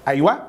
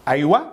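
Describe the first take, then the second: No difference in how they are said.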